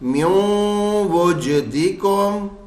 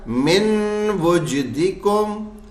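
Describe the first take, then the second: First: The n merges into a nasal hum before w. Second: A clear n sound ends the first word. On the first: "नून हट गया, अब सिर्फ गुन्ने की आवाज़ आ रही है" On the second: "था क्या?"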